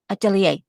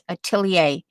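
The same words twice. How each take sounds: First: The word is said very quickly. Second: The word is said at an ordinary pace. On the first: "you have to say it really fast" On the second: "that's how I learned it"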